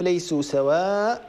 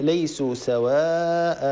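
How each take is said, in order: First: سواء ends without the alif of the nunation; wrong stop. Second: سواء ends with a two-beat alif, said slowly; correct stop. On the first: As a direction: cut سواء short at the hamza. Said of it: "لا نقف". (وقف خاطئ على سواء دون ألف) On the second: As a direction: stretch the final alif of سواء two beats. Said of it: "بل نقف". (وقف صحيح على سواء بألف ممدودة) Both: Shown as a demonstration.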